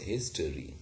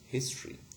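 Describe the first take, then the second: First: A weak vowel is heard in the middle. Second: No vowel is heard in the middle. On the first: This is the older way of saying it. "We used to have schwa sound here" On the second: This is the way it is said now. "as if there is no schwa sound at all"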